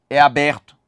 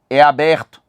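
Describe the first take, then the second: No difference in how they are said.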